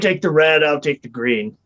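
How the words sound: It is said in a put-on character voice. It belongs to a different character. The speaker calls it wrong. "Oh, I changed my voice again"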